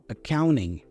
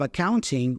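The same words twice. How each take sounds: First: The T after the N is dropped. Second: The T after the N is clearly pronounced. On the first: "that T goes away, so we pronounce the N instead" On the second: "instead of accounting"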